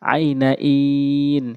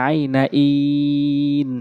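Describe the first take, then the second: Both takes have the same delivery.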